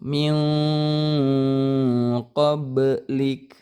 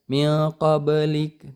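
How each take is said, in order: First: The n is held as a long nasal hum. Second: The n is short and not held. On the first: The speaker calls it right. "tapi ditahan dulu" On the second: The speaker calls it wrong. "Jangan dibaca min qablik"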